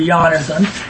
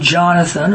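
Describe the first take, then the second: First: The name begins with a Y sound. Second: The name begins with a J sound.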